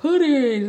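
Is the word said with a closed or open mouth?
open. It is said with a wide, open mouth.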